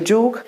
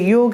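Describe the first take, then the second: First: The word begins with a j sound. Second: The word begins with a y sound. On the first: This is the Awadhi form. "ये के जगह पर ज" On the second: This is the standard Hindi form. "ये के जगह पर ज"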